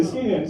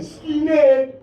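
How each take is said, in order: First: Said in the usual way. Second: Loud, high, drawn-out call. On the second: Real, not acted. Comedian hails the skinhead in the audience, loud call. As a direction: holler it out at the heckler. Calling out to a heckler.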